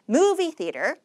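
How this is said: Said as one unit, stressing the first word. It is one compound word. The speaker calls it right. "강세를 앞에다 주셔야 됩니다"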